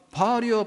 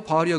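First: "바알이여" flung out high, rising to a frenzied peak; frenzied Baal cry. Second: Fading Baal cry. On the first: Baal's prophets cry out to their god, high-pitched call. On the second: Baal's prophets call again with no answer, fading. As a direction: let the second "바알이여" drop and fade. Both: Retold or imitated. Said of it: "그랬잖아".

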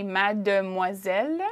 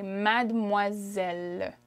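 First: "mademoiselle" slowly as spelled, ma-de-moi-selle in four syllables; fully sounded "de". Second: "mademoiselle" slowly as mad-mwa-zel, hopping over the "de"; spoken elided "de". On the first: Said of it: "I wouldn't typically say". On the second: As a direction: drop the middle e of "mademoiselle". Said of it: "if I'm speaking, I would say". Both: Shown as a demonstration.

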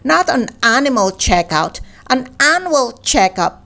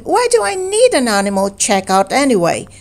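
First: Put-on patient boy correcting a muddled bear; gentle correction. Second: Confused Pooh. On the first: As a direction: stress on "Not" then "annual checkup" said clearly. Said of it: "said Christopher Robin". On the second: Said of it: "asked Pooh". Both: A narrator's reading.

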